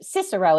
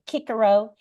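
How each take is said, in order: First: Each C is pronounced as an S sound. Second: Each C is pronounced as a K sound. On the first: This is the English pronunciation. "is how we would say it in in in Anglo in in English" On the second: This is the ancient classical pronunciation. "in ancient uh, Latin, we think they used a hard C"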